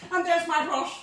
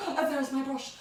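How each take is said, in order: First: Louder, higher showy reveal; excited. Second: Said in the usual way. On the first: Shown as a demonstration. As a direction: present it with a flourish.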